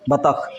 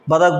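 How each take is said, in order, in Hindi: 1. इसे t से और अंत में kh के साथ बोला जाता है। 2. इसे d से और अंत में k के साथ बोला जाता है। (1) "जबकि वो बतख लिखा रहता है" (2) "हम लोग उच्चारण क्या करते हैं, उसको बदक बदक बोल देते हैं"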